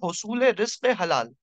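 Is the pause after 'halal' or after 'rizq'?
after halal. The pause comes after halal, before ibadat. Earning a lawful livelihood is worship. The speaker calls it right. "सही तरीका है पढ़ने का"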